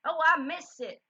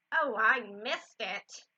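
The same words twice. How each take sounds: First: Put-on Southern accent. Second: Loud, drawn-out lament; slow, exaggerated dismay; Mama. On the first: Mama missing a shooting star, Southern accent. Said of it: "just gonna go with a Southern one". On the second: Mama missing a shooting star, loud dismay. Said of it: "I forgot Mama's accent". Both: A narrator's reading.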